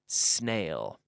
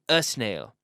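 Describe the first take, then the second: First: The word starts directly with the s sound. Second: An extra vowel sound comes before the s. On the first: The speaker calls it right. "but snail ... there's no vowel sound before the s" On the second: The speaker calls it wrong. "notice I'm not saying a snail"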